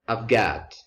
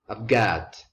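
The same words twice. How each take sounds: First: The word have is reduced to a v sound. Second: The same.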